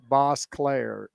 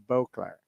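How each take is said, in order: First: The first syllable sounds like 'boss'. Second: The first syllable sounds like 'bo'. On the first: The speaker calls it wrong. "it calls Cindy Boss Claire" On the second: The speaker calls it right. "and it's Cindy Beauclair"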